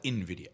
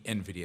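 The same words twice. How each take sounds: First: The name begins with an "in" sound. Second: The name begins with an "en" sound. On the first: The speaker calls it wrong. "not NVIDIA" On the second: The speaker calls it right. "It should be NVIDIA"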